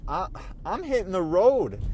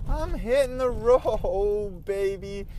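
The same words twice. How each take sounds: First: Said in the usual way. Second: Slow, stretched out, with a laugh on hitting; drawn-out swagger. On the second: Shown as a demonstration. Driver savouring his upcoming trips, slow and laughing. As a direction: draw it out like a cocky road-tripper.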